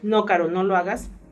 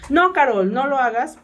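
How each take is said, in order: First: It is read flatly, without exclamatory emphasis. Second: It is said forcefully, as an exclamation. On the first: It is just read off the text as written. "sin un signo de admiración" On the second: It is a strong warning to stop. "pues tú das esa entonación"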